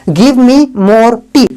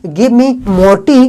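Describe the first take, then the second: The two takes are said the same way.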